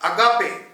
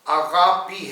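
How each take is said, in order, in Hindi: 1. इस शब्द का अंत 'ay' ध्वनि से होता है। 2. इस शब्द का अंत 'ee' ध्वनि से होता है। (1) "अगापे नहीं है" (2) "इसका सही जो प्रोनाउंसिएशन है"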